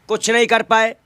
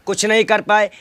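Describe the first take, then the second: No difference in how they are said.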